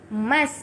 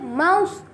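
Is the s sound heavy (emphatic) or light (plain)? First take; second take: light; heavy. First: The s sound is light and plain. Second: The s sound is heavy and emphatic. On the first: The speaker calls it right. "Mas kita baca mas" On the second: The speaker calls it wrong. "Kita tak baca mouse... itu huruf sad"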